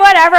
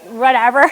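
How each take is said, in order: First: Much louder, higher brush-off; loud dismissal. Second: Said in the usual way. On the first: Retold or imitated. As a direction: belt out the shrug.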